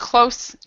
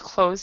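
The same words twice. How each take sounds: First: The word ends with an s sound. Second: The word ends with a z sound. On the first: It means near. "close and close" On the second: It means to shut. "close and close"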